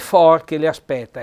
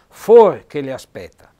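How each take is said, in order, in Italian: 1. La vocale O nella prima parola è aperta. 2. La vocale O nella prima parola è chiusa. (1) "qui c'è l'accento aperto perché è scritto da un archese" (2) "se andiamo a riva o Nago diventa"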